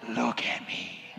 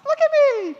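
First: It is said in a deep, gravelly Batman voice. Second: It is said in a really high-pitched voice.

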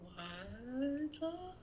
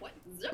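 First: It is said in a spooky ghost voice. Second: It is said as if played backwards.

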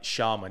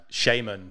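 First: The word is said the other way, sounding posh. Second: The word is said the plain English way. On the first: "it just sounds like a really posh shaman" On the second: "in England, we called it shaman"

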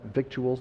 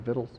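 First: The word is said in a careful, formal pronunciation. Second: The word is said in a casual, everyday pronunciation. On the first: "I think that's how you pronounce that" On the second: "but we say victuals"

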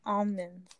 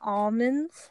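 First: The L sound is silent in the word. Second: The L sound is pronounced in the word. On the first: "But other states or other people would say almonds" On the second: "They would like pronounce the L in almonds"

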